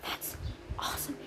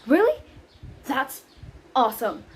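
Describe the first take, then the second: First: That's awesome said much softer, almost whispered; hushed. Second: Awesome said louder with a falling finish; excited. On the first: Nanny catching herself on a secret call, hushed. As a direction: rein it back in to a hush. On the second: Nanny cheering Romeo's plan, a loud happy outburst. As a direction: let it burst out happily. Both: Shown as a demonstration. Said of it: "I mean".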